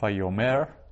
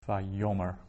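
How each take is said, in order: First: The stress is on the last syllable. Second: The stress is on the middle syllable. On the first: The speaker calls it wrong. "So it's not vayomer" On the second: The speaker calls it right. "the accented syllable is the yo"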